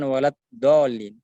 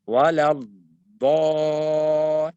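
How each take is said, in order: First: "walad dolin" with a quick front d; unstretched dad. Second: "walad" with d held, then long thick "do"; istitala dad. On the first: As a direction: say "walad dolin" short, without holding the d. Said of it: "bukan walad dolin". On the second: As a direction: stretch the closing sound of "walad" into "do". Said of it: "namanya al-istitola". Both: Shown as a demonstration.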